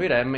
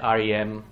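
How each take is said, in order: First: The acronym is pronounced as a single word. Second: The acronym is pronounced letter by letter. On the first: This is how Italians say it. "che noi chiamiamo IREM" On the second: This is how English speakers say it. "in inglese è REM"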